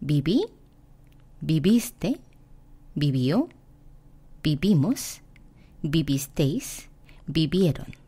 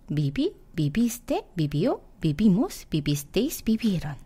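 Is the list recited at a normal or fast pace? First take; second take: normal; fast. First: The forms are recited at a normal pace. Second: The forms are recited at a faster pace.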